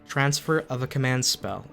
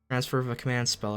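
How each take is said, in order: First: It is read at a slow pace. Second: It is read at a quicker pace.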